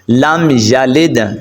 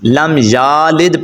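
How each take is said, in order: First: The vowel after the y is short. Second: The vowel after the y is long. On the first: The speaker calls it right. "کیونکہ یا کے اوپر زبر ہے، کھڑا زبر نہیں ہے" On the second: The speaker calls it wrong. "لم یالد پڑھیں گے تو غلط ہو جائے گا"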